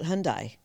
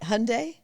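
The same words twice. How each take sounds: First: The last syllable does not sound like 'day'. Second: The last syllable sounds like 'day'. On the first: The speaker calls it wrong. "but some people call it Hyundai" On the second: The speaker calls it right. "at least I got the I, the last part right"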